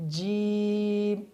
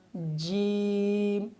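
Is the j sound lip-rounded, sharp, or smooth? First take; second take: lip-rounded; lip-rounded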